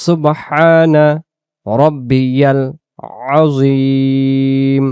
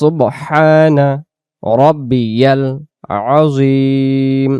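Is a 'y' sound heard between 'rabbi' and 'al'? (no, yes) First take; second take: yes; yes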